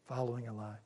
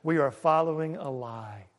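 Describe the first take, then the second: First: Soft, hushed repeat of "Following a lie"; quiet echo. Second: Said in the usual way. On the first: Shown as a demonstration. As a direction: let "Following a lie" fall away almost to a murmur.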